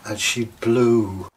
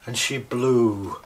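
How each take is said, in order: Both takes have the same delivery.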